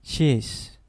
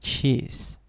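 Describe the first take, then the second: The two takes are said the same way.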